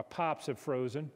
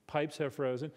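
First: PIPES said as "pops", long flat Southern vowel; Georgia pronunciation. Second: PIPES with a clear long "i"; standard pronunciation. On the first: Showing a central Georgia pronunciation, "pops" for pipes. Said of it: "someone in central Georgia would speak English". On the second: Translating the Georgia phrase, standard "pipes". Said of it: "but pronounced differently". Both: Shown as a demonstration.

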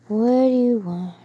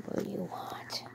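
First: Said in the usual way. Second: Soft unvoiced whisper. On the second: Real, not acted. Owner whispering a question to her puppy. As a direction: breathe it secretly, no voice. Whispers to dog, then repeats.

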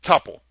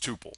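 First: "tuple" said TUP-pull; "tuple" rhyming with supple; short-U tuple. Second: "tuple" said TOO-pull; "tuple" rhyming with pupil; long-U tuple. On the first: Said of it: "as many people say". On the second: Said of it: "my default way of saying it". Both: Shown as a demonstration.

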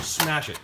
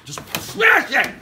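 First: Said in the usual way. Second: High, loud, slow shout. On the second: Acted. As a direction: smash it, yelling.

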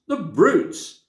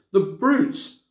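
First: High, louder tearful The brutes; tearful outrage repeated. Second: High, tearful cry of The brutes; a girl crying out through tears; tearful outrage. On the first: Lucy crying again at the jeering crowd. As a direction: cry it again, more upset. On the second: Lucy watching Aslan mocked, high and tearful. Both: A narrator's reading. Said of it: "tears streaming down her cheeks".

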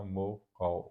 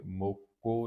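First: ਮੋਕੋ said as mo-kau, second vowel gliding; gliding au ending. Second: ਮੋਕੋ ending in a simple o; plain o, mistaken. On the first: Teacher correcting the reading, ਮੋਕੋ as mo-kau. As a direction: open the last vowel of ਮੋਕੋ into au. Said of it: "ਮੋਕੋ ਨਹੀਂ ਪੜ੍ਹਨਾ". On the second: Teacher showing the wrong reading, ਮੋਕੋ with final o. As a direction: end ਮੋਕੋ on one pure o vowel. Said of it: "ਨਹੀਂ ਪੜ੍ਹਨਾ". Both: Shown as a demonstration.

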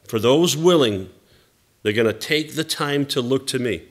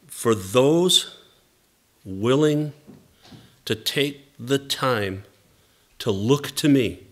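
First: Said in the usual way. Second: Halting, with long pauses between phrases; measured quotation. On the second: Retold or imitated. Pastor relaying God's answer about the fellowship, measured and spaced out. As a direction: deliver it phrase by phrase, leaving space after each.

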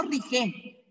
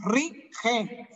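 First: RIGE run together with a soft G; wrong, weak G. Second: RIGE slowly split as RI-GE, with a hard, throaty G; strong G. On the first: Teacher shows pupils what to avoid, weak run-together RIGE. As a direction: say "rige" as one word, the G not stressed. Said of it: "Otra vez, no rige". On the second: Teacher corrects pupils' pronoun, forceful throaty G in RIGE. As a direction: say "rige" slowly, pushing out the second syllable. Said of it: "Fuerte ese G". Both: Shown as a demonstration.

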